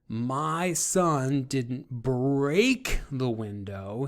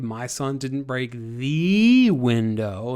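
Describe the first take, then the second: First: The word break carries the strongest stress. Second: The word the carries the strongest stress. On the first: The window was only damaged, not broken. "he didn't break it, he just maybe cracked it or chipped it" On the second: A lesser window was broken, not the important one. "He didn't break the most important, most significant window"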